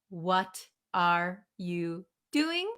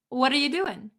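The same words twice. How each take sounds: First: Each word is said clearly and separately. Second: The words run together with reduced sounds. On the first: "instead of saying" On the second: "We sometimes say"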